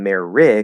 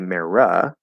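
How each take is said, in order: First: The vowel after the R is short I. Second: The vowel after the R is a schwa. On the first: "Instead of saying meri" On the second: "can we change the I for a schwa? ... can we say mera?"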